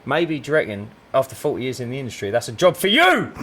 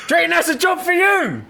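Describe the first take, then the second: First: Said in the usual way. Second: High, sarcastic sing-song repeat; mocking disbelief. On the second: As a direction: sneer at the claim, pitched way up. Mocking repeat after a laugh.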